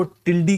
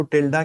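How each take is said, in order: First: टिल्डी ending in a long "ee"; name variant टिल्डी, ending "-dee"; tilde as "tildi". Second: टिल्डा ending in a long "aa"; name variant टिल्डा, ending "-daa"; tilde as "tilda". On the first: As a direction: say टिल्डी with a final "ee" sound. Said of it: "कुछ लोग इसको टिल्डी कहते हैं". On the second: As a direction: say टिल्डा with a final "aa" sound. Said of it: "कुछ लोग इसको टिल्डा कहते हैं". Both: Shown as a demonstration.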